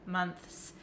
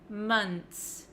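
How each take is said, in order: First: It ends with a 'th' then 's' sound. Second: It ends with a plain 'nts' sound. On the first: The speaker calls it wrong. "You have to stick your tongue out for the T H" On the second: The speaker calls it right. "finish it off with an N T S"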